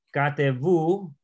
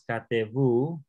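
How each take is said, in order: First: Katevu stretched very slowly, stress held back near the end; slow stress demo. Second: Katevu drawn out very slowly, ending on a rising tune; slow stress demo. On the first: Teacher slowly sounding out Katevu to show the stress. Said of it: "la fuerza aquí". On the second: Teacher slowly repeating Katevu for the student. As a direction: stretch out Katevu and lift the end. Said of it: "también está aquí atrás". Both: Shown as a demonstration.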